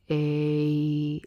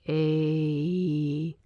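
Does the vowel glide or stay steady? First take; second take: glide; glide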